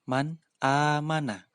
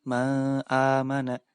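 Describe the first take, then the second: First: The n sound is pronounced clearly before amana. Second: The n sound is dropped before amana. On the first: The speaker calls it right. "Cara membacanya harus dibaca jelas" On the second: The speaker calls it wrong. "Tidak boleh dibaca"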